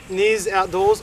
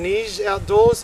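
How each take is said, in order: First: The name ends with a buzzing 'z' sound. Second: The name ends with a hushing 'ch' sound. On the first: The speaker calls it wrong. "well I pronounced it" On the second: The speaker calls it right. "It's pronounced Niche Outdoor, as in like Niche. It's like Polish pronunciation"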